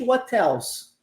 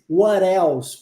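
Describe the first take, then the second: First: The t is a clear t sound. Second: The t is a quick r-like flap. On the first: "No inglês britânico, muito possivelmente what else, tá? O T com som de T" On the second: "No inglês americano-canadense, what else, porque o T é transformado em R"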